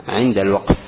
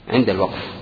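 No difference in how they are said.

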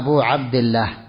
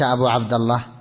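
First: The word Abd ends with an i vowel. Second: The word Abd ends with a u vowel. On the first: The speaker calls it right. "فالصواب أن تقول أنا أبو عبد الله" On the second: The speaker calls it wrong. "ليس أبو عبد الله"

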